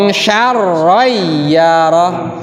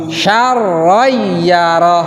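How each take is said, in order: The two takes are said the same way.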